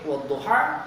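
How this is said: The final vowel is a clear 'a'.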